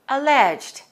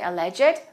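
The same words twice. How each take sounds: First: The ending joins the previous syllable, no extra syllable. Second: The ending is said as a separate syllable. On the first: The speaker calls it right. "we say alleged" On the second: The speaker calls it wrong. "we don't say alleged"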